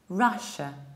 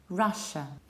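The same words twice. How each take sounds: The two takes are said the same way.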